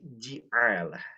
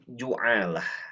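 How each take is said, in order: First: The first syllable has an i vowel. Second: The first syllable has a u vowel. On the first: "mengkasrohkan huruf jim, sehingga dibaca menjadi ji'alah" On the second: "mendomahkan huruf j, jimnya"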